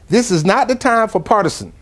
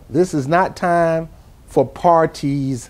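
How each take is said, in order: First: It is said at normal speed. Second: It is said slowly and deliberately.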